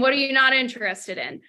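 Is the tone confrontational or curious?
confrontational. The question sounds blunt and challenging. The caller is challenging the prospect's objection. "There's a difference between that and, all right, Jason"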